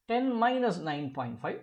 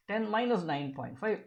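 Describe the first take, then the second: No difference in how they are said.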